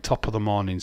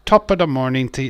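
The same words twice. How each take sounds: First: Said in the usual way. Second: Hammed-up Irish accent, louder and higher; stage Irish greeting, pushed and bright. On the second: Shown as a demonstration. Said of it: "all stereotypical Irish things".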